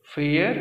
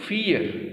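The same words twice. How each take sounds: First: फेयर with an open e vowel; fair pronounced. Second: फियर with an ee vowel, higher and falling; fear pronounced. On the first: Teacher contrasting fair and fear for students, clear vowel. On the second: Teacher contrasting fear with fair for students, ee vowel. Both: Shown as a demonstration. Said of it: "pronunciation भी अलग है बिल्कुल".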